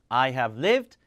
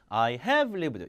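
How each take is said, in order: First: The stress falls on the word lived. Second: The stress falls on the word have. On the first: The speaker calls it right. "강세는 일반 동사 해줘야 됩니다" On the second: The speaker calls it wrong. "조동사 해주면 안 되고 I have lived. 이렇게 읽으면 안 되죠"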